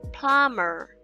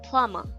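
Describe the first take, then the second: First: It is said in a non-British accent. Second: It is said in a British accent.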